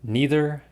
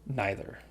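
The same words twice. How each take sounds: First: Neither with long ee; nee-ther. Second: Neither with eye sound; nye-ther. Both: Shown as a demonstration. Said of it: "at the beginning".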